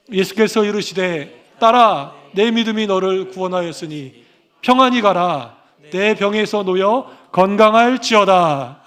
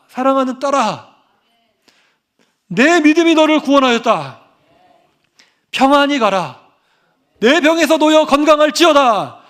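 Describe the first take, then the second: First: Slow solemn verse reading; unhurried reverent Bible recitation; scripture reading. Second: Higher and louder, declaring each phrase; 사랑하는 and 믿음이 and 놓여 hit high and loud; fervent preaching. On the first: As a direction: intone the verse, dwelling on the ending. Reads the key verse aloud. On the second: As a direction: proclaim the verse with rising fervor over the congregation. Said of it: "이게 아니라". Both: Acted.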